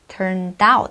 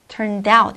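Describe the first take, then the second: First: Each word is said separately without linking. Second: The words run together with linked sounds. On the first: The speaker calls it wrong. "이 아니라" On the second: The speaker calls it right. "이렇게"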